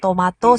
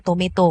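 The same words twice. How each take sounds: First: Tomato with a broad AH, to-MAH-to; tomato as to-MAH-toh; dialect variant. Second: Tomato with an E sound, to-MAY-to; tomato as to-MEH-toh; dialect variant. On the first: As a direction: say the middle of tomato like "ma". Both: Shown as a demonstration. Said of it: "Itu kan dialeknya beda".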